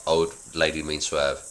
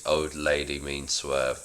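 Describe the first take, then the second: First: Said in the usual way. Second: Slower, softer echo of the line; slow soft repeat. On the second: Acted. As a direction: repeat it back slowly, half under the breath. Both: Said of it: "Julian repeats".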